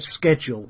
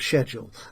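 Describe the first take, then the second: First: It is said with an American pronunciation. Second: It is said with a British pronunciation. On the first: "they actually said schedule" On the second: "instead of schedule"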